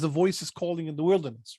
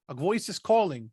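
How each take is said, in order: First: "calling in the wilderness" run as one phrase; no break after "calling", carry on through "wilderness"; CALLING joined to WILDERNESS. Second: "calling" closes the phrase with a falling tune; phrase ends after CALLING. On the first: Preacher quoting the other translation, "calling in the wilderness" unbroken. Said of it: "The other one says". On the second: Preacher showing a translation's phrasing, break after "calling". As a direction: stop after "calling", before what is called. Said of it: "they do it the other way". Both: Shown as a demonstration.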